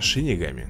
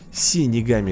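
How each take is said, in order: First: The word begins with an sh sound. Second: The word begins with a plain s sound. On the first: The speaker calls it right. "надо говорить Шинигами" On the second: The speaker calls it wrong. "Синигами — это как-то, ну, даже не звучит"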